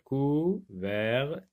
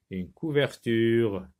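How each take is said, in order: First: COUVERTURE très lent, en cou-ver-tu-re; détacher les quatre syllabes de « couverture »; découpé en syllabes. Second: Said in the usual way. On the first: Shown as a demonstration. (« couverture » syllabe par syllabe, lentement) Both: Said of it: "vous avez quatre syllabes".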